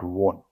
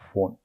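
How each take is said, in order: First: The word begins with a W sound. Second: The word begins with an F sound. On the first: The speaker calls it wrong. "not won" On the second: The speaker calls it right. "This way"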